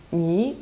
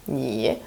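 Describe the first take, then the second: First: Ni said quicker, tone slightly changed; a lighter, shorter ni as in normal talk; everyday-speed tone. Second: Ni drawn out slowly and low; slow careful tone. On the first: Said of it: "when people speak at this speed, their tones will be slightly different". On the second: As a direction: stretch ni to spell out its tone. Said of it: "pronouncing the tones very slowly". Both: Shown as a demonstration.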